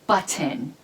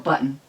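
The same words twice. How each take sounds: First: The T in the middle is clearly pronounced. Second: The T in the middle is lazily swallowed. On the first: This is how New Zealanders say it. "they say butter and button" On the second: This is how Americans say it. "but we go button"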